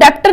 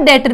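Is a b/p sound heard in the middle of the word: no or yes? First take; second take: yes; no. First: A b or p sound is pronounced mid-word. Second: No b or p sound is pronounced mid-word. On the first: The speaker calls it wrong. "इसको डेप्टर नहीं पढ़ना है" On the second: The speaker calls it right. "बी यहाँ पे क्या है silent है"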